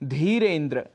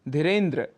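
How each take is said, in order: First: The first vowel is long. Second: The first vowel is short. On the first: The speaker calls it right. "शुद्ध उच्चारण है धीरेन्द्र" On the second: The speaker calls it wrong. "दीर्घ स्वर होने पर हम उसका ह्रस्व उच्चारण कर बैठते हैं"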